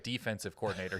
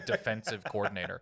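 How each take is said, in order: First: The stress falls on the first syllable of defensive. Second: The stress falls on the second syllable of defensive. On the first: The coaching job in charge of defense. "He's not like a defensive coordinator" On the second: Someone who is always defending his decisions. "He's a defensive coordinator. I think it's the big difference in how you pronounce it"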